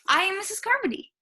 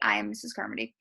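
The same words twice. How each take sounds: First: It is said in an excited tone. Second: It is said in a matter-of-fact tone.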